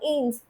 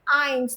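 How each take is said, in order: First: The vowel does not sound like English 'eye'. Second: The vowel sounds like English 'eye'. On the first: The speaker calls it wrong. "not eins" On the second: The speaker calls it right. "the pronunciation will always be of I, the English I"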